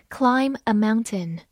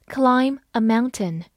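The two takes are said the same way.

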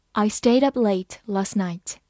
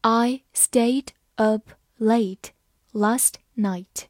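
First: Said in the usual way. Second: Slow, with a gap after each word; slow read-aloud. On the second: Shown as a demonstration. Teacher leads learners through the example, slowly word by word. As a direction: spell out the sentence slowly, word by word. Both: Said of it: "好，慢慢来读".

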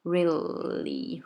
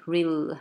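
First: Really with a held L before "ly"; really drawn out in two syllables; full really. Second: Real ending on the dark L, no ly; real with the ly cut off; really cut short. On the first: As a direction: linger on the L, then release ly. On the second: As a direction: stop on the L of real. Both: Shown as a demonstration. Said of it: "把这个really后面的ly给它切掉".

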